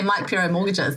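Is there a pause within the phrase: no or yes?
no. The phrase runs on without a pause. The speaker calls it wrong. "If you just say"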